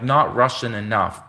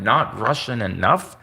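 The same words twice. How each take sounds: First: Said in the usual way. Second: Slow, disbelieving question rising at the end; incredulous echo. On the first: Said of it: "imagine a Russian channel being like". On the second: Real, not acted. Vlogger mocking YouTube's ruling, slow incredulous rise. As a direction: drag it out in disbelief. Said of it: "incredulous echo of the verdict".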